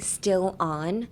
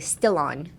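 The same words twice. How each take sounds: First: The two words are said separately. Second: The two words run together as one. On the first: The speaker calls it wrong. "instead of saying, but I'm still on" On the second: The speaker calls it right. "make the still and on one word"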